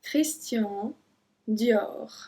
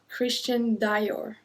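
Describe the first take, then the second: First: It is pronounced the French way. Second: It is pronounced the English way. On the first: The speaker calls it right. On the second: The speaker calls it wrong.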